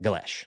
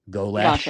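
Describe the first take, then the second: First: The vowels are short and not dragged out. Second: The vowels are dragged out in a Southern drawl. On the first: The speaker calls it right. "don't drag it out, Galesh like that" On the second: The speaker calls it wrong. "I have a tendency to drag enunciations out with my Alabama accent"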